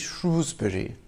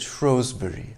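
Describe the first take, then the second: First: The first syllable rhymes with 'shoe'. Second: The first syllable rhymes with 'show'. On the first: This is how most residents say it. The speaker calls it right. "a majority believe that it should be Shrewsbury" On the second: This is how posh people or outsiders say it. The speaker calls it wrong. "only posh people or outsiders call it Shrewsbury"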